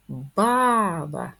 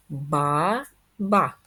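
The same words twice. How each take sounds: First: "Баба" with the first "Ба" stressed and the second light; stress on first syllable. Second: "Ба-ба" in two even syllables with a break between; split into syllables. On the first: Teacher checking stress in "Баба" for pupils, first syllable stressed. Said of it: "Давайте перевіримо наголос". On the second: Teacher splitting "баба" into syllables for pupils, evenly. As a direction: clap out "Ба-ба" syllable by syllable. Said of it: "Давайте розкладемо на склади". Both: Shown as a demonstration.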